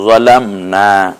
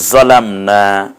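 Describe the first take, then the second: First: জলামনা drawn out slowly, জা opened; slow model reading. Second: জলামনা said slowly with short জ vowel; careful recitation. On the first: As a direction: recite জলামনা slowly for students. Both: Shown as a demonstration. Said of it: "জালামনা না বলে আমরা জলামনা".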